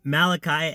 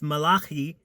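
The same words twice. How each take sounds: First: The name is said in an English pronunciation. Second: The name is said in a non-English pronunciation.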